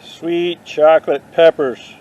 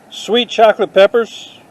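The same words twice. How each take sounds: First: Drawn out slowly, as if tasting a band name; Sweet chocolate peppers said slowly with a lingering "Sweet"; slow savouring. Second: Sweet chocolate peppers called out high and bright with surprise; excited reading, higher and louder. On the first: Trying it out as a band name, slow and savouring. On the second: Reading a plant tag to the camera, excited and higher. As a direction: announce it like a thrilling discovery. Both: Pretend. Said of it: "I'm gonna name my next band that".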